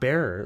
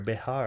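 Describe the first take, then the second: First: It is said as one syllable, bear. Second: It is said as two syllables, Behar. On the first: The speaker calls it wrong. "it's not bear" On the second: The speaker calls it right. "B E X A R, Behar"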